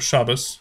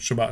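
First: The word ends with an s sound. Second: The word ends with a t sound. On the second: "instead of saying Shabbat Shalom"

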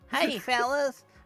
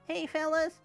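First: The put-on voice has a strong hick accent. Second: The put-on voice has a milder hick accent. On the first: The speaker calls it wrong. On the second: The speaker calls it right.

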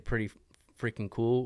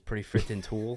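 First: The last word begins with a K sound. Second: The last word begins with a T sound. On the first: "they always say pretty freaking cool" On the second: "every C is a T and every G is a D"

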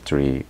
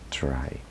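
First: The vowel sounds like 'ee'. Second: The vowel sounds like 'eye'. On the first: The speaker calls it wrong. "Muchas veces lo pronunciamos mal" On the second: The speaker calls it right. "la Y al final se pronuncia I"

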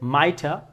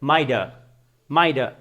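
First: The middle consonant is a crisp t sound. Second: The middle consonant is a soft d sound. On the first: "এখানে ব্রিটিশরা বলছে মাইটা" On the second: "আমেরিকানরা বলছে মাইডা মাইডা"

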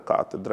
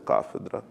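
First: The word has a t sound before 'edra'. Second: The word has an f sound before 'edra'. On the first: "в когось катедра" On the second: "звука «ф» на звук «т»"

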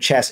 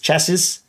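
First: The word ends without a final s sound. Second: The word ends with an audible s sound. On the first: "So they don't end it with the S" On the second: "I do end it with the S"

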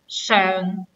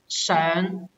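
First: It is said with the adjective reading's tone. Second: It is said with the verb reading's tone. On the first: The word is used as an adjective. "When it is an adjective, we pronounce as 上" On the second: The word is used as a verb. "When it is a verb, we pronounce as 上"

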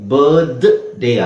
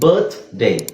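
First: The th is said as a voiced d-like sound. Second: The th is said as a voiceless t-like sound. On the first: The speaker calls it wrong. "ಬರ್ತ್ ಡೇ ಆಗಲ್ಲ" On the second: The speaker calls it right. "Consonant ಗಿಂತ ಮುಂಚೆ ನಾವು ಥನೇ use ಮಾಡೋಕೆ"

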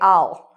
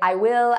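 First: It is said as the short form, I'll. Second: It is said as two full words, I will. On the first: The speaker calls it right. "But oftentimes in English we say I'll" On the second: The speaker calls it wrong. "I often hear my students say, I will"

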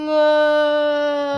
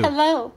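First: It is said slowly. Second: It is said at a normal speed.

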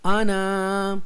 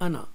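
First: The first vowel is long, the alif is voiced. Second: The first vowel is short, the alif is silent. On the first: The speaker calls it wrong. "इसको ऐसे नहीं पढ़ेंगे" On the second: The speaker calls it right. "अलिफ नहीं पढ़ेंगे, हम पढ़ेंगे अना"

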